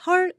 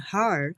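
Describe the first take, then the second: First: The word is short and clipped, without curled R. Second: The word is drawn out with a curled R. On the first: The speaker calls it wrong. "짧게 발음하시는 것보다는" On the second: The speaker calls it right. "이렇게 꼬아지는 속도가 좀 있거든요"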